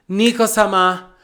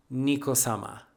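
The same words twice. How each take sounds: First: Name called out high and loud; big, raised-voice fangirl reveal; excited dramatic announcement. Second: Low, soft, reverent naming; hushed dramatic reveal. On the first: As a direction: proclaim the name with hype. Emphatic repeat of the reveal. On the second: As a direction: drop the name low and softly. Dramatic answer to own question. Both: Acted.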